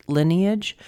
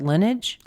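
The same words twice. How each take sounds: First: "lineage" in three syllables, LIN-ee-ij; corrected pronunciation. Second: "lineage" in two syllables, like LIN-ij; slip in pronunciation. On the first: Reader correcting the word, "lineage" as LIN-ee-ij. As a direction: say "lineage" with the middle "ee" sounded. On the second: Reader naming the family line, "lineage" squashed to LIN-ij. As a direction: say "lineage" as LIN-ij, dropping the middle vowel. Self-corrects how the word is said. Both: Real, not acted.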